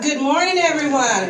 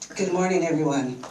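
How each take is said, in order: First: It is said in a booming pastor voice. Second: It is said in a plain, ordinary voice.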